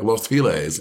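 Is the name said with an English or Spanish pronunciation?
English. It is pronounced the English way. "People be like"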